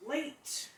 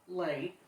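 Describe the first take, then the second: First: Late sung out high with a rise; stress on Late. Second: Said in the usual way. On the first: Real, not acted. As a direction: stretch Late up high and rising. Stressing how late it came.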